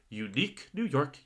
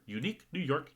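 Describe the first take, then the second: First: The phrase is said at a moderate pace. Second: The phrase is said at a quicker pace. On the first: "Let me try again" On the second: "a little faster, my turn"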